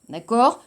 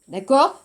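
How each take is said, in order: No difference in how they are said.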